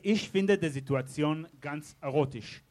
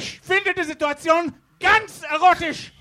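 First: It is said at a normal speaking volume. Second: It is yelled loudly.

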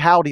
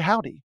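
First: It is said flatly, with no accent or force. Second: It is said with a drawl and force. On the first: It is a learned campus greeting. "it's just very non-accented" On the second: It is a native Western greeting. "like something you would think in a Western"

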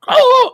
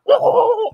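First: It is a deeper, guttural hit grunt. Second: It is a guttural grunt gurgling as underwater.

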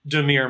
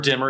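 First: The name does not sound like 'dimmer'. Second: The name sounds like the word 'dimmer'. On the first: The speaker calls it right. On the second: The speaker calls it wrong.

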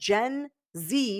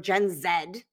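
First: The letter Z is said as zee. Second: The letter Z is said as zed.

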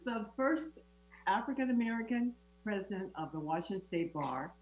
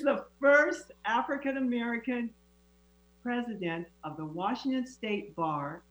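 First: It is said at a quiet, normal volume. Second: It is said at a loud, raised volume.

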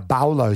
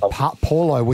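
First: The name begins with a B sound. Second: The name begins with a P sound. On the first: "is now Baulo, so is the P's B's in some dialect" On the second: "Junior Paulo"

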